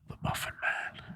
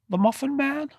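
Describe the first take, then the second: First: It is whispered in a sinister way. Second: It is said in a normal voice.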